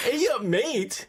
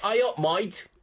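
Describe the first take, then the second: First: Slow, higher mock Australian "Ay up, mate"; mock Australian accent. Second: "might" said with the broad Australian vowel, like "my-t", in "Ay up, might"; Australian "might" for mate. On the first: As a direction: echo it back in a hammed-up Australian accent. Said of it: "That's Australian". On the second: Retold or imitated. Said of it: "Australia, it's might".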